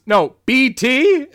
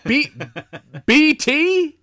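First: "B T" said high, loud and drawn out; "B T" in emphatic, slow correction; correcting. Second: Very high, loud incredulous echo; hammed-up disbelief at the odd name; Tom Atkins impression. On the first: Retold or imitated. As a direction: spell out "B T" slowly to correct them. Fan corrects a misheard name. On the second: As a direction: repeat the nickname as a baffled question. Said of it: "inflection is so spot on for him".

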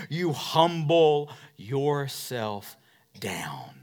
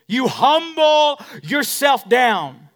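First: Hushed and slow. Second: Slow, louder, higher, stressed on humble; loud preached line. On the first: Pastor showing humility to the church, hushed and slow. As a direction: sink the voice down low. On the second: Pastor declaring to the church, loud and slow. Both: Acted.

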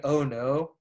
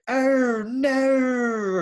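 First: Said in the usual way. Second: "Oh, no" pitched much higher, drawn out with an added R; British shocked oh no. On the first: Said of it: "instead of saying". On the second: Shown as a demonstration. Mimicking how British people say "Oh, no" when shocked, added R. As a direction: gasp out "Oh, no" high, adding an R sound. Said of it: "they add, like, R's to it".

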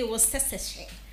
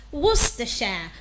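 First: Worcestershire said WOS-es-suh-sheh; Worcestershire with every letter sounded; common mispronunciation. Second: Worcestershire said WUS-tuh-shuh; Worcestershire clipped to WUS-tuh-shuh; correct pronunciation. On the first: Host imitating a common error, every letter sounded. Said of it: "A lot of people will say". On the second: Host correcting the error, WUS-tuh-shuh. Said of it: "No, it is pronounced as". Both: Shown as a demonstration.

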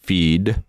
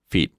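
First: "Feed" stretched, lower, with final D; long, voiced ending. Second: "feed" shortened to "feet"; short, voiceless ending. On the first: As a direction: hold "Feed" into its D. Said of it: "Jedno je delší a obsahuje Dčko". (protažené „Feed“ se znělým D) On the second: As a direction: cut the vowel, end on T. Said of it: "Jedno je delší". (krátké „feet“ s neznělým T) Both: Shown as a demonstration.

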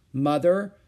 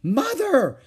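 First: Mildly worried, louder call for Mother. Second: Loud, high cry of alarm; horrified cry. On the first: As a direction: worry rising at the end. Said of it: "she said in a worried voice". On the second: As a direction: cry out in horror. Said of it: "she cried, horrified at what she saw". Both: A narrator's reading.

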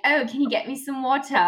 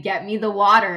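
First: Higher-pitched put-on British accent. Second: Said in the usual way. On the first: Shown as a demonstration. Performing the childhood party trick for friends, British accent. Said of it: "talk in a British accent". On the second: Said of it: "He would ask me to say".

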